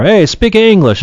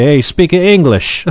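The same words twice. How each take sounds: First: Grandfather's call. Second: Grandfather's gruff call. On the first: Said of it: "That's what he used to say". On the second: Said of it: "My grandfather used to say". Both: Retold or imitated.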